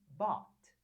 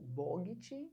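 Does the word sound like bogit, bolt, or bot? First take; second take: bot; bogit. First: It is said as one short syllable, bot. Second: It is said with two syllables, bo-git. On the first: The speaker calls it right. "a pronúncia perfeita de comprei em inglês" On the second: The speaker calls it wrong. "você não acertou"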